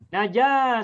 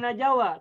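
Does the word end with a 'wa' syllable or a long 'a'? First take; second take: long a; wa. First: The word ends with a long 'a' vowel. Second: The word ends with a separate 'wa' syllable. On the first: The speaker calls it right. "bacanya menjadi naja saja" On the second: The speaker calls it wrong. "tidak boleh dibaca najawa"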